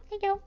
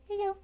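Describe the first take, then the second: No difference in how they are said.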